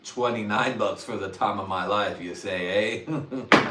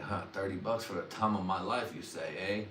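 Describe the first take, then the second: First: Louder mock haggling, punching the price; louder hammed-up repeat. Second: Soft, musing to himself; a quiet tempted murmur; hushed tempted muse. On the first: Haggling with the dealer, louder and hammed-up. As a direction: sell the bargain louder. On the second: Retold or imitated. Tempted by a dealer's offer, soft and musing. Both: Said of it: "when I was like".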